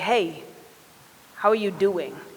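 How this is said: It is said slowly, with sincere interest.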